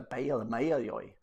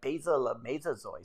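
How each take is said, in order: First: It uses y sounds, a southern Vietnamese accent. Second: It uses z sounds, a northern Vietnamese accent. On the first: "for the southern it was a" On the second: "in the north it was like"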